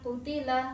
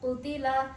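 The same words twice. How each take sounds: The two takes are said the same way.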